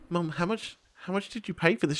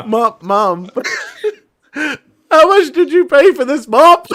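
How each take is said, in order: First: Quiet, careful question to mum; hushed, wary asking; restrained disbelief. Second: High, loud, drawn-out disbelief cracking into laughter; mock-anguished plea, slow and squeaky; exasperated laughing. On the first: Retold or imitated. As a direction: ask it softly, holding back the disbelief. First, restrained ask to mum. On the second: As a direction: wail the question through helpless laughs. Exasperated repeat, breaking into laughter.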